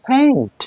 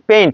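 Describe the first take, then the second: First: The first consonant has a strong puff of air. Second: The first consonant has no puff of air. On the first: The speaker calls it right. "এর correct pronunciation" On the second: The speaker calls it wrong. "No"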